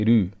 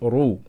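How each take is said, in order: First: The r is said light and thin. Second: The r is said heavy and full. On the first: The speaker calls it wrong. "we're not going to say ru" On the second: The speaker calls it right. "We're going to say ru"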